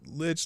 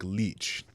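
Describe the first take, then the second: First: The vowel is short, rhyming with rich. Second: The vowel is long, sounding like leech. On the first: "it could be pronounced Lich like Rich" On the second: "it could also be pronounced like Leech"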